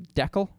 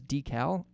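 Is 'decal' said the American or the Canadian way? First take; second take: Canadian; American. First: It is said with a Canadian pronunciation. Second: It is said with an American pronunciation. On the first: "one of those words was decal" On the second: "Apparently Americans say it as decal"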